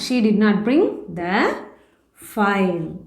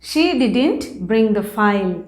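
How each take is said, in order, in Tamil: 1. 'Did not' இரண்டு முழு வார்த்தைகளாகச் சொல்லப்படுகிறது. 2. 'Did not' ஒரே வார்த்தையாக, 'didn't' என்று சுருக்கப்படுகிறது.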